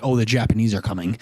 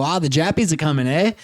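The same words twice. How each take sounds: First: Lower, matter-of-fact American delivery; classic American accent. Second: Casual mock-Australian lilt; Australian accent. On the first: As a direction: say it in standard American. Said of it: "than classic American". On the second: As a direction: imitate an Aussie tossing out slang. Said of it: "they go". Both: Shown as a demonstration.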